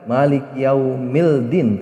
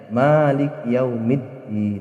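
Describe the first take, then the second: First: The l sound is clearly pronounced before d. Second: The l merges into a doubled d sound. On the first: The speaker calls it wrong. "Tidak boleh dibaca maliki yaumildin" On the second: The speaker calls it right. "tapi dibacanya maliki yaumiddin"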